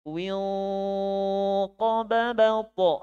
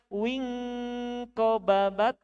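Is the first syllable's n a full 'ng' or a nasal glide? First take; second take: nasal glide; full ng. First: The first syllable ends in a nasal glide. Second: The first syllable ends in a full 'ng' sound. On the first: The speaker calls it right. "tapi wiu ko babau po" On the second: The speaker calls it wrong. "bukan wing ko babat"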